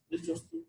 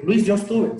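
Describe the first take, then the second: First: Much higher and softer mock plea; high, soft imitation of a student begging. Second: Said in the usual way. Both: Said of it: "Así como que".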